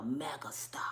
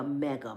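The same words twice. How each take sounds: First: Soft unvoiced whisper of the word. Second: Said in the usual way. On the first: Comic teasing the crowd with a hushed whisper. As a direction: breathe it out like a secret.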